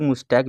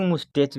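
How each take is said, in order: First: मुस्टैक ending in a hard "k"; variant pronunciation. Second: मुस्टैच ending in a "ch" sound; variant pronunciation. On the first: Teacher showing students the other accepted way, मुस्टैक with final "k". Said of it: "कई लोग मुस्टैक भी कहते हैं". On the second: Teacher showing students one accepted way of saying it, मुस्टैच with final "ch". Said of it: "कई लोग मुस्टैच भी कहते हैं". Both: Shown as a demonstration.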